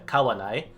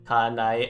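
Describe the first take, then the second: First: A w sound separates the two a vowels. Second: The two a vowels run together without a w. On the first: The speaker calls it right. "as opposed to" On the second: The speaker calls it wrong. "It just sounds awkward"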